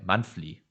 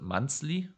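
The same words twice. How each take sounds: First: The 'th' sound is said like an F. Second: The 'th' sound is said like a Z. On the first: "but I'm a F guy" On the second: "I'm not a Z guy, like not monthly"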